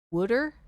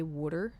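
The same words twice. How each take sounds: First: Put-on "Wooder?" in a Jersey accent, rising. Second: Put-on "wooder" in a Jersey accent, soft. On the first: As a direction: ask "Wooder?" Jersey style. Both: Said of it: "People from Jersey say".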